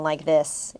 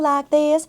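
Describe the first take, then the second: First: It is said in a mid-Atlantic accent. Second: It is said in a Southern belle accent. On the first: The rest of the cast spoke this way. "everyone else was talking like this. ... very like mid-Atlantic" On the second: One actress spoke differently from the rest of the cast. "she was talking like a Southern belle"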